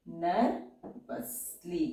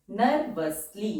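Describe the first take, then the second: First: नर्वसली drawn out very slowly and softer; slow dictation. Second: Said in the usual way. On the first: Shown as a demonstration. (नर्वसली को बहुत धीरे खींचकर बोलना) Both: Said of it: "words हैं".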